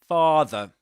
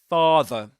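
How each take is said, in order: Both takes have the same delivery.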